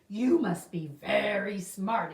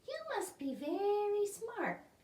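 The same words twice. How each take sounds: First: It is read in the crocodile character voice. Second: It is read in a different character voice. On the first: The speaker calls it right. "let me try that again" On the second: The speaker calls it wrong. "I did the wrong voice on that one"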